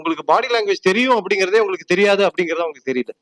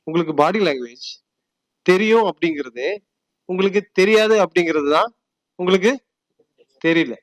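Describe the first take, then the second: First: The sentence is spoken at a fast pace. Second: The sentence is spoken at a slow pace.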